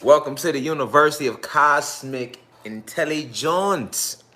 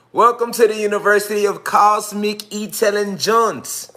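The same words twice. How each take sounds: First: Said in the usual way. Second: "Welcome to the University of Cosmic Intelligence" in a lifted showman's voice; higher, grander announcement. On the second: Shown as a demonstration. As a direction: welcome pitched up and louder. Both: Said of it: "We gotta enunciate it different".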